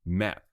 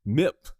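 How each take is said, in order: First: Said in the usual way. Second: Mip instead of map, a little louder; mispronounced mip. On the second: Shown as a demonstration. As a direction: stumbles into saying mip. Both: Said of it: "Why am I saying map?".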